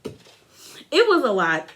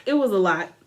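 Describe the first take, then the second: First: Imitating Andy, slow. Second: Said in the usual way. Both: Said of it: "even Andy was like".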